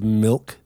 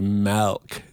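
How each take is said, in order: First: Milk is said with a standard vowel. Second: Milk is said like 'melk', Canadian-style.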